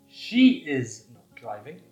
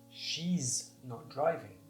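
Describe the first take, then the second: First: The words are said fully and separately. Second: The first words are joined into one contracted syllable.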